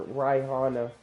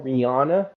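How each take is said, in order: First: [name] said as "Rye-HAH-na"; deliberate mispronunciation. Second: Said in the usual way. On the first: Retold or imitated. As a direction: imitate dad saying [name] wrong, first syllable like "rye". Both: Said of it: "say her name wrong".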